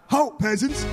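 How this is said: It is said eagerly, with gusto.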